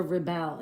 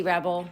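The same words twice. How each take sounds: First: Rebel stressed on the second syllable, re-BEL. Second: Rebel stressed on the first syllable, REB-el. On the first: Puzzle host offering the other reading, Rebel stressed re-BEL. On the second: Puzzle host weighing a crossword answer, Rebel stressed REB-el. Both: Shown as a demonstration. Gives two readings of one word.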